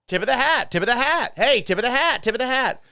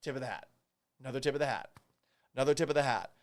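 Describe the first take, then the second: First: Higher, louder, rattled off like an auctioneer; auctioneer rapid fire. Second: Quiet, mock solemn hat tips; soft mock tribute. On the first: Pretend. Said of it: "rapid fire talk like an auctioneer". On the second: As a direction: tip the hat softly, mock respect. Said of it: "here's a hat".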